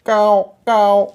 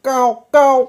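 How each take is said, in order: First: Long drawn-out loud caws; slow, stretched crow cries; crow call. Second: Two high, loud caws; high double crow caw; crow call. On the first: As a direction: caw twice slowly, high and loud. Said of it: "पुन्हा कावळा ओरडू लागला". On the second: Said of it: "कावळा पुन्हा ओरडला". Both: A narrator's reading.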